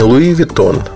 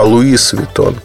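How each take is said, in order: First: Louis is said without a final s sound. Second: Louis is said with a final s sound. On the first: This follows how native French speakers say it. The speaker calls it right. "надо говорить не Луи Виттон" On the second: This follows spelling rules learned at school. The speaker calls it wrong. "а Луис Виттон. Потому что там вот это все как-то правильно, по правилам"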